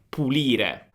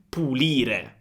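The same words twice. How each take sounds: The two takes are said the same way.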